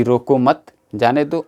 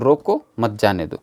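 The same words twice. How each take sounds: First: रोको मत as one group, break, then जाने दो; pause after मत. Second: रोको alone, break, then मत जाने दो as one group; pause after रोको. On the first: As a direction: split it after मत, before जाने दो. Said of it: "विराम चिन्हों के प्रयोग से अर्थ बदल भी जाता है". (रोको मत, फिर रुककर जाने दो) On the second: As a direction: split it after रोको, before मत. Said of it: "यहाँ पे पाए हैं कि बदल गया है". (रोको के बाद रुककर मत जाने दो) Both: Shown as a demonstration.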